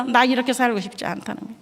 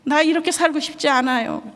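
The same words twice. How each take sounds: First: Said in the usual way. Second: Put-on higher, tearful child's plea; lightly voiced crying boy; pleading boy, voiced higher; son's plea. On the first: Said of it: "열 살 먹은 아들 입에서". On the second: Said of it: "펑펑 우는 거예요".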